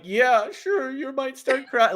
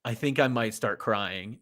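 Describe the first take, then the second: First: High, strained voice holding back tears; mock choked-up. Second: Quoting wife's remark. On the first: Replying to someone about to cry, tears welling up, mock choked-up. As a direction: squeak it out as if already welling up. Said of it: "tears welling up in my eyes". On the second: Retold or imitated. Alyssa during the film they watched together, understated warning of tears. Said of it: "Alyssa's like".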